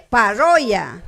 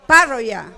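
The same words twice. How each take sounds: First: Parroya with RRO stretched and stressed; paRROya, leaning on the middle syllable; stress on second syllable. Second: Parroya with the beat on PA; PArroya, stressed up front as the rule predicts; stress on first syllable. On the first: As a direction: say "Parroya" as pa-RROO-ya. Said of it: "No obedece". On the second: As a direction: say "Parroya" as PA-rro-ya, falling after PA. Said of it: "debería de acentuar la primera". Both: Shown as a demonstration.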